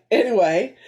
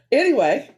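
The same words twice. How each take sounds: First: Said in the usual way. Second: "Anyway" said higher and louder; louder "Anyway" to move on; brisk topic change. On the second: Real, not acted. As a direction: snap back to the topic with "Anyway".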